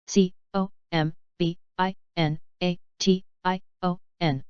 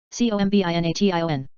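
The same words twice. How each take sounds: First: Slow, letter by letter; unhurried classroom spelling. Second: Quick letter run; brisk recap spelling; fast spelling. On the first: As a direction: spell each letter out slowly. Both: Shown as a demonstration. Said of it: "spelling drill, slow then fast".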